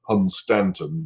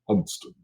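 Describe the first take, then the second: First: The name is said in full with three syllables. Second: The name is shortened to two syllables. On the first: This is how the name is written. "it's spelled Hunstanton" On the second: This is how the name is actually spoken. "you pronounce it Hunston because it's English"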